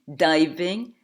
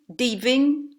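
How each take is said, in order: First: The first vowel glides from 'ah' to 'ee'. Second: The first vowel is a single plain 'ee' sound. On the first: The speaker calls it right. "Il s'agit bien entendu de" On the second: The speaker calls it wrong. "les Français diront volontiers"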